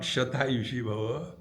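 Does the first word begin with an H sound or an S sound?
S sound. The first word begins with an S sound. "Not Shata Yushi Bhava"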